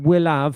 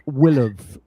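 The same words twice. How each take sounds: First: It is pronounced in a Cockney-like way. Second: It is contracted with a schwa vowel. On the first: The speaker calls it wrong. "it wouldn't generally be pronounced quite will have" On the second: The speaker calls it right. "more like will have"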